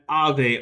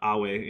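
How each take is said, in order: First: It is said with ecclesiastical Latin pronunciation. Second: It is said with classical Latin pronunciation. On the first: "which is an ecclesiastical Latin pronunciation for hail" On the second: "closer to Ave in actual classical Latin"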